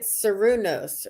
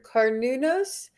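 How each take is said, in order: First: The name begins with a soft S sound. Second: The name begins with a hard K sound. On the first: The speaker calls it wrong. "I was pronouncing it Sarunos" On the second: The speaker calls it right. "it's Kar Karnunos"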